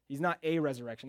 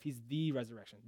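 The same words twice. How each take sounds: First: "a" said as a full, stressed "ay". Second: "the" given clear weight as the only one; stress on "the". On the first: Preacher ruling out one among many, stress on "a". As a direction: hit "a" as the wrong article, rhyming with "day". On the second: Preacher contrasting it with "a", stress on "the". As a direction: lean firmly on "the". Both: Shown as a demonstration. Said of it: "That word "the" is very important".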